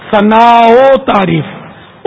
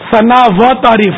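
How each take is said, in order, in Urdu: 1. ملانے والے لفظ کی آواز مختصر 'o' ہے۔ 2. ملانے والے لفظ کی آواز واضح 'wa' ہے۔ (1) "او کا نکلے گا" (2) "نہیں"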